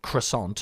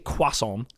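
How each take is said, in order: First: It is said with an American pronunciation. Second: It is said with a British pronunciation. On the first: "I know Americans say croissant" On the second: "we say croissant"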